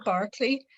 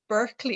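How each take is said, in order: First: The first syllable sounds like 'bark'. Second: The first syllable sounds like 'burk'. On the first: "I do say Barclay" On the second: "it sounds like it's an adjective and it's like Burke like"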